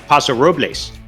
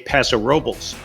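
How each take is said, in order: First: The name is said with Spanish pronunciation. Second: The name is said with English pronunciation. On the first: The speaker calls it wrong. "like you would in Spanish" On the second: The speaker calls it right. "you'll immediately gain the respect of locals if you fight that urge"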